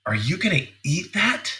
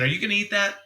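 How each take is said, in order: First: Imitating a reproachful wife, higher-pitched; imply he shouldn't be eating so much; wife's disapproving tone. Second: High, eager question to his wife; hinting, hopeful ask. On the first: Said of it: "she changes the tone of voice". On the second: Shown as a demonstration. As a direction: fish for a taste, pitched well up. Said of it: "notice the tone of my voice".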